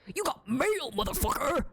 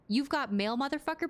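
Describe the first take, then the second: First: It is said in a rough, gruff voice. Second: It is said in a plain, ungruff voice.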